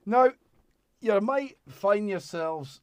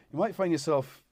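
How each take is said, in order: First: Slow, higher Scottish lilt; a sudden Scottish voice; Scottish accent. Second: Said in the usual way. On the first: Real, not acted. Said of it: "I've gone Scottish". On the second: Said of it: "I don't know why I've gone Scottish".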